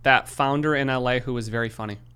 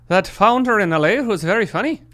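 First: It is said in the speaker's ordinary accent. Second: It is said in a put-on Irish accent.

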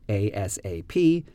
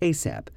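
First: It is said as four separate letters. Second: It is said as one single word. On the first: "sometimes we do just use it as a string of letters" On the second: "sometimes people pronounce it like a word"

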